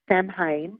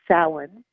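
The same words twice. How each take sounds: First: The word is sounded out following its spelling. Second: The word sounds unlike its written letters. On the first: The speaker calls it wrong. "it looks like Samhain" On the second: The speaker calls it right. "it's actually said as Samhain"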